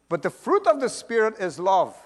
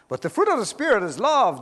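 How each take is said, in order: First: It is read at a slower pace. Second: It is read at a faster pace.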